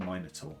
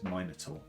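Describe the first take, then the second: First: It is pronounced in the speaker's British way. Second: It is pronounced in the speaker's British way.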